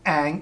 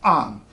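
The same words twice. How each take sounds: First: The vowel is made farther forward in the mouth. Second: The vowel is made farther back in the mouth. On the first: The speaker calls it wrong. "is not ang" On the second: The speaker calls it right. "farther back in the mouth"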